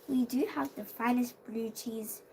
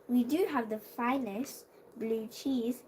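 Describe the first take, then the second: Both takes have the same delivery.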